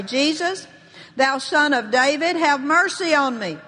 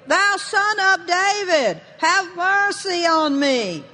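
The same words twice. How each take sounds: First: Lightly acted cry for mercy. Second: High, slow, insistent cry; crying out all the more. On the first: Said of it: "he began to cry out and say". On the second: Acted. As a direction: plead loudly, stretching each word. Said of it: "he cried all the more a great deal".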